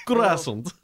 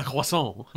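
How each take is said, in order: First: Croissant in a thick, higher-pitched Russian accent. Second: Said in the usual way. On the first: Shown as a demonstration. Player testing a word for the character, Russian accent. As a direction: try "Croissant" as a Russian would, amused. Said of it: "say croissant with a Russian accent". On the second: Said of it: "How in the gods do you say croissant".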